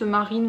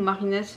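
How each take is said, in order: First: "Marine" with the final S left silent. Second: "Marinès" with an audible s at the end; final S pronounced. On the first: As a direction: say "Marine", ending on the n sound. (« Marine » sans prononcer le S final) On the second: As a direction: say "Marinès", sounding the last S. (« Marinès » en prononçant le S final) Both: Shown as a demonstration. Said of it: "s'il faut prononcer le S".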